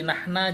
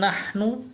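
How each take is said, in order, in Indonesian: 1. Kata itu berakhir dengan vokal a. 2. Kata itu berakhir dengan vokal u. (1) "Tidak bisa jadi nahna" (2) "begitu juga kami"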